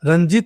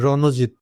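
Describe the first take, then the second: First: The n and j sounds run together. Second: A vowel separates the n and j sounds. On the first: The speaker calls it wrong. "রঞ্জিত করলে হবে না" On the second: The speaker calls it right. "উচ্চারণ এভাবে করতে হবে কিন্তু রণজিৎ"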